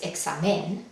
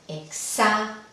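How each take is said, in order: First: The stress is on the last syllable. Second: The stress is on the second-to-last syllable. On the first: The speaker calls it wrong. "No es examen" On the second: The speaker calls it right. "vemos que sí cae en la penúltima"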